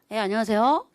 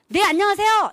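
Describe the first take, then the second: First: The voice is pitched low and flat. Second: The voice is pitched high and bright. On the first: The speaker calls it wrong. "이렇게 하면 안 돼요" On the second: The speaker calls it right. "이렇게 목소리를 딱 올려야 되는데"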